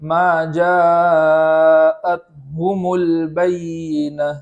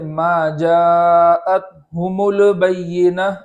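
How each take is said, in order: First: The l sound is held and stopped with no vowel. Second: A short vowel is added after the l sound. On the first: The speaker calls it right. "लाम को उसके मखरज में जमा करके पढ़ेंगे" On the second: The speaker calls it wrong. "इस तरह नहीं पढ़ेंगे"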